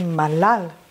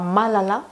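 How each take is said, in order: First: The final vowel fades into a faint sigh. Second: The final vowel is fully sounded. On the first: The speaker calls it right. "Petit soupir ici, quoi, qui tombe" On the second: The speaker calls it wrong. "c'est pas Malala"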